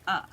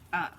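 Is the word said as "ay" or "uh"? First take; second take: uh; uh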